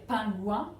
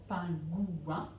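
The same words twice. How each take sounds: First: Said in the usual way. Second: PINGOUIN opened up as pin-gou-in; three syllables. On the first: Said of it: "On a l'habitude de dire pingouin". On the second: Shown as a demonstration. Teacher correcting the habit, PINGOUIN in three syllables. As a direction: give PINGOUIN three beats, separating gou from in. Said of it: "il y a effectivement trois syllabes".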